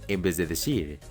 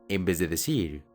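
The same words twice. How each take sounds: The two takes are said the same way.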